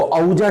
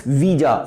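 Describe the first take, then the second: First: औजा read with an "ow" opening in place of "wee"; wrong reading. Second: Said in the usual way. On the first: Shown as a demonstration. Teacher warning students off a misreading, औजा mispronounced as "ow-ja". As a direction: misread ouija by its spelling, औजा as "ow-ja". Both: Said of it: "इसको औजा नहीं पढ़ना है".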